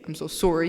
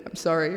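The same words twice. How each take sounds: First: Light Canadian "sorry", first vowel rounded like "sore"; a hint of Canadian accent on "sorry". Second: Said in the usual way. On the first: Shown as a demonstration. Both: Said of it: "He didn't have a Canadian accent".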